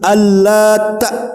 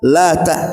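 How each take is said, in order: First: The t sound is doubled and held long. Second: The t sound is single and short. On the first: It refers to a man who made bread dough. "bisa dibaca tasdid al-lata" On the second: It is a feminine form of the word for God. "Bisa juga dibaca lata tanpa tasdid"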